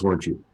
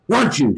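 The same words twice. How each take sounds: First: Said in the usual way. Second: A higher, louder mock yell of Weren't you; retold yell. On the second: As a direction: repeat it, pushing harder the second time. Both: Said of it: "she yells at him".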